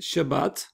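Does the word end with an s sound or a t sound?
t sound. The word ends with a t sound. This is the modern Israeli pronunciation.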